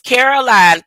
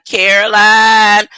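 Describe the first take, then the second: First: Said in the usual way. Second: "Caroline" slowed and louder, ending stretched like "Carolan"; re-say "Caroline" deliberately, dragging the last syllable "lan"; louder, slower "Caroline" with a stretched "lan" ending; drawn-out re-pronunciation. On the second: Shown as a demonstration.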